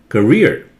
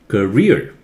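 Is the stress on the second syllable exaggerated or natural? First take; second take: exaggerated; exaggerated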